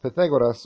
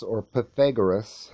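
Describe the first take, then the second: First: Pythagoras said loud and higher, puh-THEG-oh-das; Greek-tinged Pythagoras, projected loudly; alternative pronunciation. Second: Pythagoras said the English way, puh-THEG-uh-rus; anglicized pronunciation. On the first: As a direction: tap the R in Pythagoras and keep the O full. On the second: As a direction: say Pythagoras with an English R and reduced vowels, loudly. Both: Shown as a demonstration. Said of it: "however you want to pronounce the".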